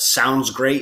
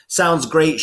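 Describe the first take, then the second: First: Said in the usual way. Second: A mild sarcastic eye-roll "Sounds great"; reading an example line with a hint of disdain; disdainful. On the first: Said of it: "what "sounds great" is supposed to sound like". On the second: Shown as a demonstration. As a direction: say it with a light, dismissive eye-roll. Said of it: "her eyes disdainfully rolling in her head".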